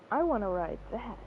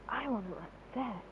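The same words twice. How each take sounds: First: It is said in a normal speaking voice. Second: It is said in a quiet, hushed voice. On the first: The speaker calls it wrong. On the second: The speaker calls it right.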